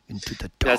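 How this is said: It is said in a dark, ominous way.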